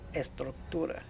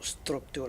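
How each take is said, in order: First: The word starts with an e vowel sound. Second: The word starts directly with the s sound. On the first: The speaker calls it right. "It would always be estructura" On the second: The speaker calls it wrong. "It's not structura"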